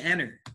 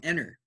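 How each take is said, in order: First: The T sound is silent. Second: The same.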